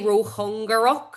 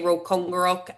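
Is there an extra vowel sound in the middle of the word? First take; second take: yes; no. First: An extra vowel is heard in the middle. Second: No extra vowel is heard in the middle. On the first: "now you say rochungarok" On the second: "I say rochungarok"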